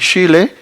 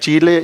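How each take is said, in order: First: The first sound is a fricative sh. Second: The first sound is an affricate ch. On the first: This variant is socially stigmatized. "la variante fricativa sh" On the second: This is the unmarked everyday variant. "la realización africada ch es la variante no marcada"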